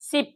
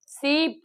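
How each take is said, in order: First: Sip with a short "i"; short vowel. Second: Sip drawn out as "seep"; long vowel. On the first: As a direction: keep the vowel in sip brief. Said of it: "ಐ ಪಿ". (sip ಪದದಲ್ಲಿ ಹ್ರಸ್ವ "ಇ") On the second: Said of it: "ಡಬಲ್ ಇ ಪಿ". (sip ಪದದಲ್ಲಿ ದೀರ್ಘ "ಈ") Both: Shown as a demonstration.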